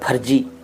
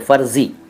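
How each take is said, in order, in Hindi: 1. इसमें महाप्राण p की ध्वनि और j की ध्वनि है। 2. इसमें f की ध्वनि और z की ध्वनि है। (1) "वो तो बिल्कुल ही गलत है" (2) "फ के नीचे भी नुक्ता लगाइए और ज के नीचे भी नुक्ता लगाइए"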